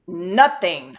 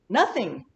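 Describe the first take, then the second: First: It is said in an annoyed, upset tone. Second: It is said in a plain, neutral tone. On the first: The person is upset about something. "I'm pissed" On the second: Nothing really happened. "Really didn't do anything last night"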